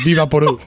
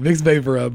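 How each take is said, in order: First: The name is said as Viva Poru. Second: The name is said as Vicks VapoRub. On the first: The speaker calls it wrong. "It says Viva Poru" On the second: The speaker calls it right. "but she can't pronounce it right"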